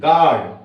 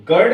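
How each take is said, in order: First: "गार्ड" with a long open AA; "गार्ड", long vowel; silent U. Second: "गर्ड" with a short "ur" vowel; wrong-way "गर्ड", short vowel; wrong U sound. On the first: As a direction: say "गार्ड" as gaard, no U. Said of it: "ये pronounce करते हैं गार्ड". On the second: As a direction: say "गर्ड" as gurd. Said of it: "इसको गर्ड नहीं पढ़ते". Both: Shown as a demonstration.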